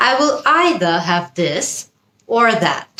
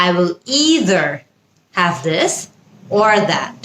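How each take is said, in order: First: "either" said EYE-thuh, British way; British pronunciation. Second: "either" said EE-ther, American way; American pronunciation. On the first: Teacher models British usage for learners, "either" as EYE-thuh. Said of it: "British". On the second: Teacher models American usage for learners, "either" as EE-ther. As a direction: open "either" with a drawn-out EE, r ending. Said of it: "American". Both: Shown as a demonstration.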